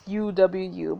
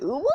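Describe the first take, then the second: First: Said in the usual way. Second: "ooh" said as a word, not spelled out; "ooh" instead of three separate letters; pronounced as a word. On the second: Shown as a demonstration. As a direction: pronounce "ooh" as one cooed word, with a laugh. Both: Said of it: "but we pronounce it ooh".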